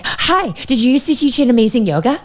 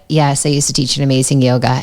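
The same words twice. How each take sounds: First: High, eager gush blurted at a stranger; word vomit. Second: Polite but reluctant reply. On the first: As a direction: blurt it out high and overeager, like a nervous fan. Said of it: "word vomit was like". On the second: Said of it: "she just wants to go to any yoga studio and not be known". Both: Retold or imitated.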